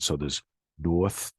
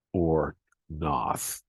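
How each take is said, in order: First: "North" slowly, the R kept, rising end; first take of "North", slow and clear; Boston North with R. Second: "North" said as "Nath", R dropped, open ah; second take: drop the R in "North"; Boston North without R. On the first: Teacher giving the first Boston form, slow. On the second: Teacher giving the R-less Boston form. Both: Shown as a demonstration. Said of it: "there are two alternate pronunciations".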